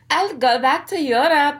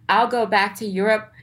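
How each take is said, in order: First: It is said in a put-on imitating voice. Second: It is said in the speaker's ordinary voice. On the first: The speaker calls it right. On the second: The speaker calls it wrong.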